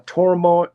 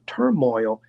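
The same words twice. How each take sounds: First: Drawn-out Tennessee "turmoil"; Tennessee accent. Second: "turmoil" as clear "TUR-moyl"; corrected pronunciation. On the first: Real, not acted. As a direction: say "turmoil" as "tor-mo", slowly, Tennessee style. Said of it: "that's my Tennessee accent". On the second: Shown as a demonstration. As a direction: say "turmoil" lower, with a full "oil" ending. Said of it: "sorry, that's my Tennessee accent".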